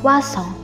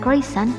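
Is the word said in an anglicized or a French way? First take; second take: French; anglicized. First: The word is said in a French way. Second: The word is said in an anglicized way. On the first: The speaker calls it right. "namun croissant" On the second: The speaker calls it wrong. "jadi bukan croissant"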